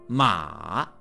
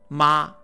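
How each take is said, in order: First: The pitch falls first and then rises. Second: The pitch does not dip then rise.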